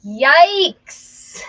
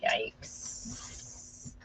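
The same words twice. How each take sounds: First: Loud yikes. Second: Breathy yikes. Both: Real, not acted.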